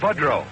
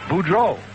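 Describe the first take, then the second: First: The name is said with the local Illinois pronunciation. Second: The name is said with the French pronunciation. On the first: The speaker is from the local area. "born and raised in Harvey and around Chicago, it was called Budrow" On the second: This follows the name's original language. "The great correct French pronunciation is Boudreau"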